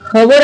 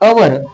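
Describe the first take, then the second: First: The word begins with an h sound. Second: The word begins with a vowel sound. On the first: The speaker calls it wrong. "पण याला आपण हवर वाचू शकत नाही" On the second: The speaker calls it right. "एच is silent"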